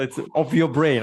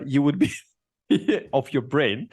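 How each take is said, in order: First: Said in the usual way. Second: Laughing through the words; a slipped phrase broken by a laugh. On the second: Real, not acted. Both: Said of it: "I pardon myself".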